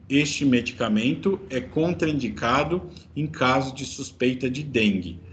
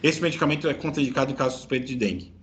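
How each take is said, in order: First: The sentence is spoken slowly and clearly. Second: The sentence is rushed out very fast. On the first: "traduzindo em slow motion" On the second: "Fala bem rápido"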